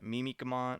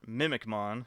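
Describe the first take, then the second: First: The name begins with a Japanese-style 'mimi' sound. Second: The name begins with the English word 'mimic'. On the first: The speaker calls it wrong. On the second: The speaker calls it right.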